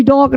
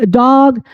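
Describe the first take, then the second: First: "डॉग" said as "dohg", round o; wrong O pronunciation. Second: "डॉग" said as "daag", long aa; open AA pronunciation. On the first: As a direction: close the vowel of "डॉग" to an o. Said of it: "नहीं". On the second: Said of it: "आ होगी". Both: Shown as a demonstration.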